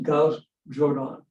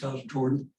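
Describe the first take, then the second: First: Jordan is said with a non-American pronunciation. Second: Jordan is said with the usual American pronunciation.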